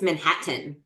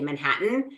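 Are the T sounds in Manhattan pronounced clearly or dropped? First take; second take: clear; dropped. First: Both T sounds are clearly pronounced. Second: The T sounds are dropped, not clearly pronounced. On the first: "Like there's two T's" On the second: "Why are you not pronouncing either of them?"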